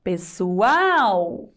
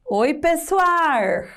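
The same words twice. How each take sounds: First: "Pessoal" ending in a clear L-U sound; "Pessoal" com L, pronúncia formal; correct pessoal. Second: "pessoal" ending in R, slow; "pessoal" com R caipira. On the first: Shown as a demonstration. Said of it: "O que seria o correto na língua portuguesa formal". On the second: Retold or imitated. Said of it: "o Chico Bento, ele troca algumas letras".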